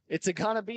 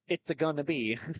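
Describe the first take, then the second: First: It is said in the speaker's ordinary voice. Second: It is said in a put-on cartoon voice.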